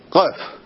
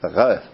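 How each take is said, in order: First: It begins with a hard g sound. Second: It begins with a fricative gh sound. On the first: "לא אומרים כמו הספרדים גוף" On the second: "הם אומרים גוף, רימל"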